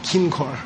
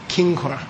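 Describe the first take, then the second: The two takes are said the same way.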